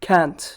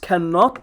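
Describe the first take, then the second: First: It is said as one short contracted syllable. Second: It is said in the full, longer form. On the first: "when you simplify it's can't" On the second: "The expanded version is cannot"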